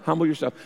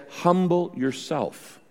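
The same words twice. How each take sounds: First: Said in the usual way. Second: "Humble yourself" said slowly and softly, leaning on "Humble"; slow emphatic quote. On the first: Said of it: "It says multiple times". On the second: Shown as a demonstration. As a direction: let "Humble yourself" land slowly, weighing each word. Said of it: "It says".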